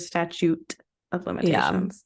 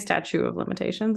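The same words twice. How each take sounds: First: The first word sounds like 'statute', with all Ts. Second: The first word sounds like 'statue', missing a T. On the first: The speaker calls it right. "instead of statute of limitations" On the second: The speaker calls it wrong. "I feel like I say statute of limitations"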